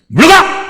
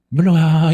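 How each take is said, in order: First: The command is said forcefully, with authority. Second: The command is said weakly, without authority.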